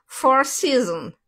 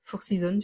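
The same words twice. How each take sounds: First: Loud, drawn-out, higher English accent; exaggerated English accent. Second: Said in the usual way. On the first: Shown as a demonstration. Streamer replays the name for a viewer mocking her, exaggerated English accent. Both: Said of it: "de mon accent anglais".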